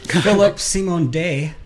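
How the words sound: The name is pronounced the French way. "If you want to say it the French way"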